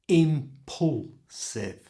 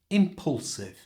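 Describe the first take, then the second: First: The middle syllable is drawn out and exaggerated. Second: The word is said quickly at a natural pace. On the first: "make that part really clear like this" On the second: "And at normal speed"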